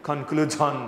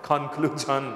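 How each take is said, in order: Both takes have the same delivery.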